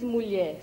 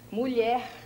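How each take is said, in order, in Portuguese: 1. A palavra termina em vogal aberta. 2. A palavra termina em som de R. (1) "não se diz mulher ... e não em E, como você colocou" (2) "se diz mulher. É uma palavra terminada em R"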